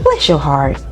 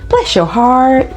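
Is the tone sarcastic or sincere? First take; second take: sincere; sarcastic. First: It sounds sincere and warm, without drawing out heart. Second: It sounds sarcastic, with heart drawn out longer. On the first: The speaker truly sympathizes with the person's situation. "if I genuinely say" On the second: The speaker is insulting the person, not blessing them. "If I say it like that and I kind of lean on heart a little bit longer"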